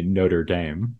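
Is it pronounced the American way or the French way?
American. It is said the American way.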